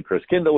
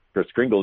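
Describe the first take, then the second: First: Chris Kindle as KRIS KIN-dul, short i; German pronunciation. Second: Chris Kringle with kr and a gl ending; altered pronunciation. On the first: Explaining what Kringle really is, German-derived pronunciation Chris Kindle. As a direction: say Kindle without an r, ending in -dul. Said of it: "the German pronunciation of Christ child". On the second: Explaining the name's origin, the altered pronunciation Chris Kringle. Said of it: "got pronounced Chris Kringle". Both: Shown as a demonstration.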